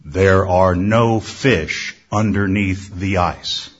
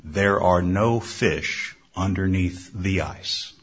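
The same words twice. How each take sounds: First: Louder deep voice. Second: Low, slow booming voice; slow, deep voice from nowhere. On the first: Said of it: "The deep voice got louder". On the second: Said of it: "he heard a deep voice say". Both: A narrator's reading.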